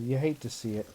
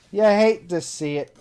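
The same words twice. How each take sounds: First: Said in the usual way. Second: Higher, louder, slower lament; milk the fake sorrow; hammed-up lament over lost beer; mock dramatic. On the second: Shown as a demonstration.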